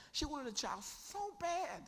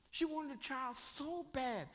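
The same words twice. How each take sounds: First: Higher, changed voice, aching; acted yearning voice. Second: Higher and slow, drawn out; slow longing. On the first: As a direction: play the barren woman aching. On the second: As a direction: stretch every word with longing. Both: Shown as a demonstration. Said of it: "This is how bad this woman wanted a baby".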